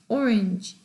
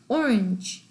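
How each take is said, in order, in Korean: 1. 강세는 첫 음절에 있습니다. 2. 강세는 첫 음절에 있습니다.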